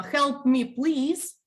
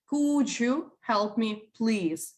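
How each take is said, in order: First: "Help me, please" said higher and punchy, more order than request; teacher modelling a rude-sounding "Help me, please"; blunt demand. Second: Slow, gentle "Could you help me, please?"; polite request. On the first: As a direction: bark it out a bit higher as a curt demand. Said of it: "please doesn't make it polite". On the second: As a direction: ask kindly and take your time. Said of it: "you do sound polite". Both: Shown as a demonstration.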